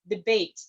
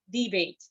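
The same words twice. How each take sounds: First: The stress is on the second syllable. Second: The stress is on the first syllable. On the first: It is used as a verb. "But if it's a verb" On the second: It is used as a noun. "if the word is used as a noun, the primary stress is on the first syllable"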